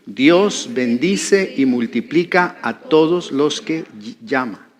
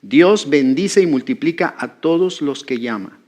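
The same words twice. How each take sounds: First: Slow, word-by-word lead; slow group repetition. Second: Said in the usual way. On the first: Shown as a demonstration. Preacher leading the congregation to repeat a phrase, slow and measured. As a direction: pace it slowly so others can repeat. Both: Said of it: "repita esa frase conmigo".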